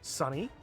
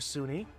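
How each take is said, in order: First: The first vowel sounds like 'sun'. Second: The first vowel sounds like 'soon'. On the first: The name is read as the ordinary word. "He pronounces it like Sunny" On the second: The name is read as the university acronym. "I can't not see this as SUNY, State University of New York"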